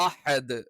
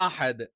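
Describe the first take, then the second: Both takes have the same delivery.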